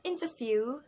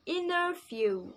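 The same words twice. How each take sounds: First: "interview" said the British way, with a clear t; British pronunciation. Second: "interview" said the American way, slower, with the t dropped: "inner-view"; American pronunciation. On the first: Teacher demoing British "interview" to viewers, crisp t. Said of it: "kalau British itu pakainya". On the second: Teacher demoing American "interview" to viewers, slow and t-less. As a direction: drawl "interview" American style without the t. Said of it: "kalau American pakainya". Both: Shown as a demonstration.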